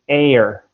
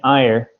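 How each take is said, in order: First: The vowel sounds like 'air' before the r. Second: The vowel sounds like 'eye' before the r. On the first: The speaker calls it right. "it should be air" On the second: The speaker calls it wrong. "you're saying ire"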